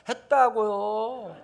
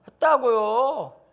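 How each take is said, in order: First: Put-on very slow, higher, dragged-out child whine; sulky child. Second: Very slow, higher, louder dragged whine; sulky child, louder. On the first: Seven-year-old sulking back at the teacher, slow whine. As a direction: drag it out like a sulky kid. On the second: Pretend. Seven-year-old answering the teacher again, louder whine. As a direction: whine it louder and slower, defiant.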